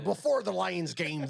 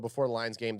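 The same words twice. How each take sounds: First: It is said in a put-on pirate voice. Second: It is said in his normal voice.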